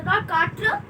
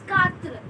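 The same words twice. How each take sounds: First: QUATRE slowly with heavy final truh, rising; mispronounced quatre. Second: QUATRE as katr, falling; correct French quatre. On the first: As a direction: say QUATRE wrongly as KAA-truh, questioning. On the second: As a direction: say QUATRE short, light final R. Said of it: "It's quatre". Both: Shown as a demonstration.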